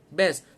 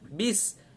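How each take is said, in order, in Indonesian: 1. Vokal setelah b terdengar seperti 'e'. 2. Vokal setelah b terdengar seperti 'i'. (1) "Selalu berlaku kesilapan bila mana best" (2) "masukkan bis"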